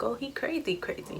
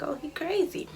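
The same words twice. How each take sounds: First: Hushed inner voice, much softer; softer inner-monologue delivery; thinking it to herself. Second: Said in the usual way. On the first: Retold or imitated. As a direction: mutter it under your breath, private thought. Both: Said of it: "in my mind".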